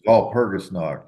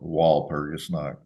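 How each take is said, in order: First: The word is pronounced with German sounds. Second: The word is pronounced with English sounds. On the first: "I do the Ger German pronunciation" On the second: "People say stop doing that. Call it Walpurgisnacht"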